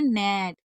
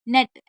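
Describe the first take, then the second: First: The vowel is said long and drawn out. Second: The vowel is said short and quick. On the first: The speaker calls it right. "कैसे बोलने" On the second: The speaker calls it wrong. "नेट ऐसे नहीं बोलने"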